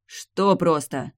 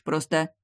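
First: Slow, punched bark on что; barked question. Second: Said in the usual way. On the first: A narrator's reading. Hero barking at the vampiress to explain. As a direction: bark it back at her. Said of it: "рявкнул я".

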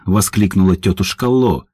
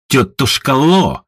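First: Said in the usual way. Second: Drawn-out, baring-teeth greeting; slow mocking hail of an old enemy; snarling greeting. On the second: A narrator's reading. Едвига snarls at her old enemy, Auntie Lo, slow and mocking. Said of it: "оскалилась Едвига".

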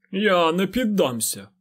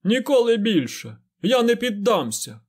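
First: High, slow stubborn declaration; proud defiance. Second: High, loud defiant shout; shouted at the ceiling. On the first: Fain defies the lord, proud and stubborn. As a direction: set your jaw and refuse with pride. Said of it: "звучали пиха та впертість". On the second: Fain shouts his defiance up at the ceiling, loud and high. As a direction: throw your head back and yell it upward. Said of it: "прокричав кудись у стелю". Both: A narrator's reading.

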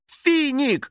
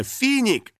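First: High vexed cry of Финик; vexed exclaim. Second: Said in the usual way. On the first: A narrator's reading. Girl cries out at the spirit over the stain, vexed. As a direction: blame him. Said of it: "с досадой воскликнула". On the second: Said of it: "Конечно, Финик!".

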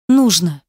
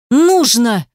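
First: Calmer but stubborn. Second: Loud, defiant single word; stubborn shout. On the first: Girl insisting to Ruslan, calmer stubborn voice. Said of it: "сказала уже спокойнее". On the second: Girl defying Ruslan, loud stubborn retort. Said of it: "упрямо возразила она". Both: A narrator's reading.

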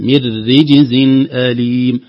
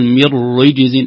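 First: "من رجز" with noon merged into a doubled light raa, louder; full idgham. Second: "من رجز" with the noon sounded before the raa; mock error: "من رجز" without idgham; wrong, no idgham. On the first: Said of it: "إضغام النون في الراء المشددة المرققة". (إدغام النون في الراء المرققة في "من رجز") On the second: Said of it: "لا نقول". (خطأ: إظهار النون في "من رجز") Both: Shown as a demonstration.

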